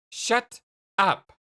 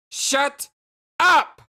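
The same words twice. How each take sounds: First: Raised voice, separated words; firm, irritated command to stop; firm angry order. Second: High, loud, word-by-word yell; angry shout. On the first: Jane telling confused Jake to stop, firm and angry. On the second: Jane answering Jake's puzzled huh, furious shout. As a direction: burst out louder on each word. Repeats order after his "Huh?. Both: Acted.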